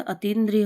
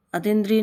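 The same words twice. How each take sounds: First: अतीन्द्रिय with a long ee after t; correct form of अतीन्द्रिय. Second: अतीन्द्रिय with a short i after t; wrong form of अतीन्द्रिय. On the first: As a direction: say अतीन्द्रिय with the tee held. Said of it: "होता है". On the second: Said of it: "नहीं होता". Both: Shown as a demonstration.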